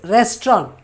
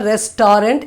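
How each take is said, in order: First: The final T sound is left silent. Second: The final T sound is pronounced. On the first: The speaker calls it right. "T won't be sounded at the end" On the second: The speaker calls it wrong. "It is not restaurant"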